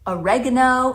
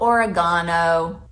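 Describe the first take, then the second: First: It is said with an American pronunciation. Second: It is said with a British pronunciation. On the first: "oregano instead of" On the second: "instead of oregano"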